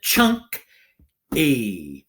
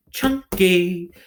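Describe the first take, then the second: First: "chunk-y" in two beats with a long pause; syllables pounded out. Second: Said in the usual way. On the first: Shown as a demonstration. Teacher pounding a word for pupils, syllables apart. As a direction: pound "chunk-y" out, loud and split. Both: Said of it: "Pound it".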